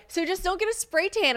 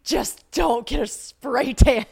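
First: High-pitched imitation of a friend's advice; Taylor. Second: Loud, high, drawn-out mimicry; mocking repeat. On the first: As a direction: toss out the advice in a high mock voice. Quoting Taylor's unwelcome advice. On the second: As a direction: throw it back slowly in an exaggerated mock voice. Mockingly repeating the unwelcome advice back.

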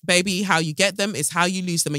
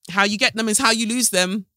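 First: Softer knowing repeat. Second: Sassy first take. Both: Real, not acted. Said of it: "repeated phrase".

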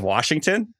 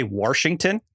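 First: Said in the usual way. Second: Washington with an extra r, Warshington; old-timer pronunciation. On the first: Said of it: "instead of Washington". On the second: Shown as a demonstration. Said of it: "This is an accent thing".

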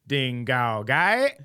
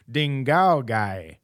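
First: Ding Gao Gai slow, rising on Gai; drawn out, the tune lifting on the last word Gai; Ding Gao Gai slowly, ending in a rise; mock Mandarin tones. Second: Ding Gao Gai slow, falling on Gao; drawn-out tones with the fall landing on Gao; Ding Gao Gai slowly, tone dropping on Gao; mock Mandarin tones. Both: Shown as a demonstration. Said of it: "That's how different it can be".

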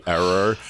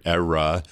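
First: "error" for era, New York accent. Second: Said in the usual way. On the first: Real, not acted. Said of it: "little bit of New York accent coming out there". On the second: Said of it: "sorry, era".

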